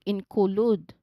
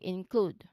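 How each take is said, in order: First: An extra vowel sound separates the K and L. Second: The K and L blend smoothly with no vowel. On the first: The speaker calls it wrong. "We do not say it as include, like include. We do not say that" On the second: The speaker calls it right. "There's no vowel sound in between. Instead, we say include"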